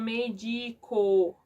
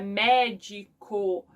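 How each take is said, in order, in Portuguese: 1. A tônica está na segunda sílaba. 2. A tônica está na primeira sílaba. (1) "eles vão médico" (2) "não, é médico"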